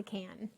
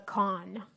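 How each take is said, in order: First: "can" said with a short a, as in tin can; can ending. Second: "con" said slowly as KAHN; kahn ending. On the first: Cook ruling out the rarer ending, soft "can" with short a. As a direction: drop softly onto "can" with its short a. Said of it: "not the can". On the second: Cook naming the majority's ending, "con" as slow kahn. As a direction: draw out "con" with an open ah. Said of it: "end the word". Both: Shown as a demonstration.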